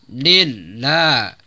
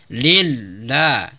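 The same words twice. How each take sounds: No difference in how they are said.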